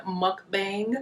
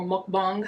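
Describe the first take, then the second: First: Mukbang: MUK-bang, a as in cat; mukbang with flat a. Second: Mukbang: MUK-bahng, open ah vowel; mukbang with ah sound. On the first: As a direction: say mukbang with a short bright a. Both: Shown as a demonstration. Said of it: "however way you say it".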